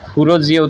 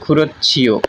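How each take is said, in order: First: The second word begins with a plain 'j' sound. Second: The second word begins with an aspirated 'ch' sound. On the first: The speaker calls it wrong. "খুরো জিয়ে উচ্চারণ না করে" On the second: The speaker calls it right. "করতে হবে খুরো ছিয়"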